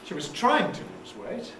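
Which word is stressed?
trying. The main stress falls on the word trying. She attempted it but did not succeed. "It means but she didn't succeed"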